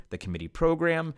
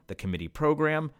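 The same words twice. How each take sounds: The two takes are said the same way.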